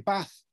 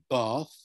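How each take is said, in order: First: The vowel in bath is short. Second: The vowel in bath is long. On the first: "Sometimes I say a short vowel and say bath" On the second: "Sometimes I say a long vowel in a word like bath"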